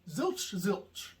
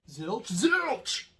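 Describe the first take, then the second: First: Both words are said at the same loudness. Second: The second word is said louder than the first.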